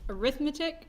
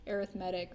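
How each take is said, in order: First: The stress is on the second syllable. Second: The stress is on the third syllable. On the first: It is used as the noun for the subject. The speaker calls it wrong. "you may try to pronounce this as arithmetic" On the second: It describes a sequence. The speaker calls it right. "if it is paired with sequence, we we typically say arithmetic"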